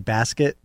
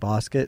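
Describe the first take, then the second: First: It is said with an American accent. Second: It is said with an Australian accent.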